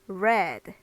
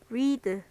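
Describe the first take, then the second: First: It is pronounced as the past-tense form. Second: It is pronounced as the present-tense form. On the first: The action happened before. "과거형으로 바꾸게 되면요 ... 읽는 방법이 read" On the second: The action happens now. "현재형 read. 얘는 read로 소리가 나요"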